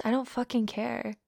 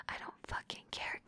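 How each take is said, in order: First: Said in the usual way. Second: Very soft, voiceless dismissal; dismissive whisper. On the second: Acted. Dominant dismissing partner's protest, whispered. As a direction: whisper the refusal.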